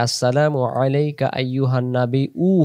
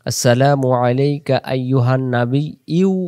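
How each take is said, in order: First: "উ" said as a bare u with no y glide; wrong plain u. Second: "ইউ" said as a clear glided yu, slow; correct yu sound. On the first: Teacher showing the common mistake, plain "উ" without y. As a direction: drop the glide, end on a flat "উ". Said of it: "তখন হামজা আসতেছে". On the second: Teacher reciting the tashahhud correctly, slow clear "ইউ". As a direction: lay the glide into "ইউ" at the end. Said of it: "সেখানে ইয়া এর উপরে পেশ". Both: Shown as a demonstration.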